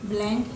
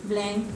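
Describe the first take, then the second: Both takes have the same delivery.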